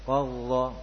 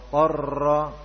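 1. Huruf r sama sekali tidak bergetar. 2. Huruf r bergetar terlalu lama. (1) "Jangan sampai tidak ada getarannya sama sekali seperti qalla" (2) "ini kebanyakan sifat takrir atau bergetar"

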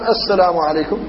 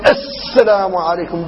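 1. تُنطق الحروف بطول عادي. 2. يُنطق الحرف بتشديد مبالغ فيه. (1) "فيقول الإنسان السلام عليكم" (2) "بتشديد شديد، وهذا غلط في النطق بالحرف"

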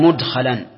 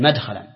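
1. الحركة الأولى هي 'u'، كما في mudkhalan. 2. الحركة الأولى هي 'a'، كما في madkhalan. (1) "صارت بضم الميم لأنها من الرباع" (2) "ولم يقل"

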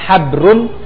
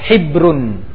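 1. Vokal pertama adalah bunyi 'a' terbuka. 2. Vokal pertama adalah bunyi 'i' tertutup. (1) "Boleh haknya pakai fathah" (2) "boleh haknya pakai kasrah"

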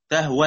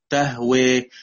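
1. الصوت الأخير 'a' مفتوح. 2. الصوت الأخير مائل نحو 'e'. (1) "لما أوصل مفيش إمالة" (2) "لما أقف أقول إيه؟"

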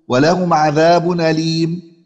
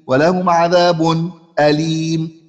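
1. الهمزة محذوفة، وحركتها منقولة إلى ما قبلها. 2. تأتي سكتة خفيفة قبل الهمزة. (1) "النقل" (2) "والسكت"

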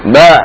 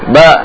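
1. Vokalnya agak dipanjangkan. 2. Vokalnya agak dipanjangkan.

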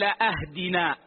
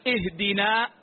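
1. تبدأ الكلمة بحركة مغيّرة. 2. تبدأ الكلمة بحركتها الأصلية. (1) "لحن في الفاتحة" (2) "بدلا من أن يقول اهدنا"

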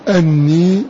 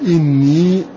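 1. تبدأ الكلمة بالصائت 'a'. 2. تبدأ الكلمة بالصائت 'i'. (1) "بفتح هذه الهمزة" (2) "وقرأ غيرهما بكسر هذه الهمزة"

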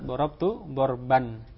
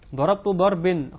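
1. Kata kedua diakhiri dengan vokal a. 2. Kata kedua diakhiri dengan vokal i. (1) "sehingga yang benar" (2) "dibaca dengan kasrah ini juga salah"

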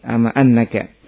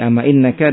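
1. Kata kedua diawali dengan vokal 'a'. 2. Kata kedua diawali dengan vokal 'i'. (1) "Kalau di fathah ama annaka berarti apa? Amanya bermakna haqqan" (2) "Ada sisi ama innaka dengan kasrah"

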